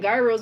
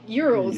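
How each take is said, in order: First: It is said with the local Trinidadian pronunciation. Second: It is said with the original Greek pronunciation. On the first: This is how people in Trinidad say it. The speaker calls it wrong. "They call it gyros" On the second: This is how it is said in Greece. The speaker calls it right. "in Greece it's called euros"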